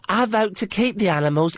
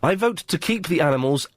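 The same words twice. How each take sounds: First: It is read in a put-on imitating voice. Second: It is read in a natural, ordinary voice.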